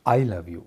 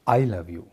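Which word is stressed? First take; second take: I; I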